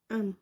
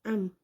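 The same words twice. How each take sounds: First: The final m is held firmly with closed lips. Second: The final m is held firmly with closed lips.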